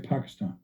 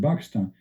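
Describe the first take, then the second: First: The word begins with a P sound. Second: The word begins with a B sound. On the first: "They don't say Pakistan" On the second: "when they say Pakistan, they say Pakistan"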